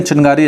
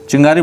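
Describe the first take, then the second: First: चिनगारी said with a clear n before the g, following the spelling; चिनगारी as it is written; spelling pronunciation. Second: चिंगारी said with a ng sound, as in everyday speech; चिंगारी as people say it; spoken pronunciation. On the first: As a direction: pronounce चिनगारी letter by letter, with a clear n. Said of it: "लेकिन चिनगारी ऐसे लिखा जाता है". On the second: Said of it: "चिंगारी बोलते हैं". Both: Shown as a demonstration.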